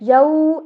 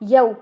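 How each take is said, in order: First: The vowel is drawn out long. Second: The vowel is kept short. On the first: The speaker calls it wrong. "यऊ ऐसे नहीं पढ़ना" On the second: The speaker calls it right. "लंबा नहीं करना"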